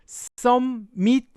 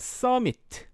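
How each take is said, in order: First: The middle m sound is doubled. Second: The middle m sound is single. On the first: The speaker calls it wrong. "저 summit은 summit 아니고요. 읽으실 때 미음 발음 쓰지 않습니다" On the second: The speaker calls it right. "그래서 그냥 summit"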